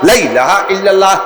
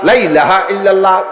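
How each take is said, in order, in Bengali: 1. প্রথম 'la'-র স্বরধ্বনি ছোট। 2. প্রথম 'la'-র স্বরধ্বনি ছোট।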